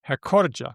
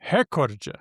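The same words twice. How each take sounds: First: The stress is on the second syllable. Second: The stress is on the first syllable. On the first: It is the usual pronunciation. "normally I said it with the second syllable" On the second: It is the broadcaster's pronunciation. "presenters and newscasters have always pronounced the word as recorde"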